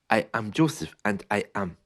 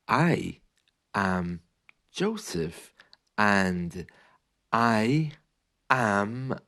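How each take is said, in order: First: It is spoken faster, still with small gaps. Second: It is spoken slowly with gaps between words. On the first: "even when you speak faster" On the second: "you often have these gaps"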